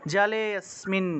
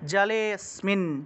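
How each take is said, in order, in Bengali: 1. শব্দ দুটি একসাথে জুড়ে বলা হয়, স্বরধ্বনিটি লোপ পায়। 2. শব্দ দুটি একসাথে জুড়ে বলা হয়, স্বরধ্বনিটি লোপ পায়।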